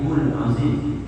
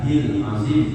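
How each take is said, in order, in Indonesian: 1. Vokal sebelum azim adalah u. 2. Vokal sebelum azim adalah i. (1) "apalagi hul azim, jangan" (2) "jangan hil azim"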